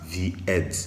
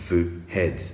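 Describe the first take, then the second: First: The article is said with a long 'ee' vowel. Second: The article is said with a short 'uh' vowel. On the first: The speaker calls it wrong. "on ne va pas dire the, the head" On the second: The speaker calls it right. "mais tout simplement the head"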